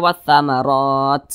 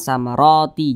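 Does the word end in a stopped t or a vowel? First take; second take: stopped t; vowel. First: The word ends on a stopped t sound. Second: The word ends with an added vowel. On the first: The speaker calls it right. "Huruf ta ini kita sukunkan atau kita matikan. Maka maka kita baca" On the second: The speaker calls it wrong.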